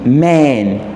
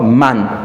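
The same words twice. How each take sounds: First: The vowel sounds closer to an 'e'. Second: The vowel sounds like an open 'a'. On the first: "en anglais américain, le A ci ne se lit pas vraiment A, ça se lit comme E" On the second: "A ici comme bat"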